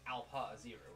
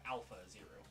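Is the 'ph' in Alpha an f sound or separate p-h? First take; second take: separate p-h; f sound. First: Alpha is split as 'alp-ha', with separate p and h. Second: Alpha is said with a plain f sound. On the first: "Like A L P, and then separate syllable H A" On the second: "instead of"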